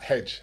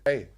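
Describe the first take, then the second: First: The word ends with a buzzing 'j' sound. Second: The word ends on an open 'ey' vowel. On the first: The speaker calls it wrong. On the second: The speaker calls it right.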